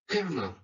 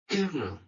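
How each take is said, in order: The two takes are said the same way.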